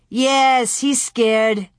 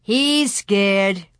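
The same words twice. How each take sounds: First: Said in the usual way. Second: Mild sneer. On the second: A narrator's reading. Pierre mocks Louie's fear, mildly sneering. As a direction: taunt with a touch of scorn. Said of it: "Pierre sneered".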